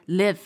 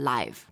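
First: The vowel is short, as in give. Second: The vowel is long, as in five. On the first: It is a verb meaning to reside. "就是live 的发音，意思是居住" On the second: It is an adjective or adverb meaning happening in real time. "如果它变成一个形容词或者副词……这个时候就是live"

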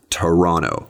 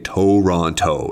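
First: The first vowel is reduced to a schwa. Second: The first vowel is a full O sound. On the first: The speaker calls it right. "If you want to say all the T's, then don't say all the O's" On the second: The speaker calls it wrong. "The most important thing is not to say Toronto"

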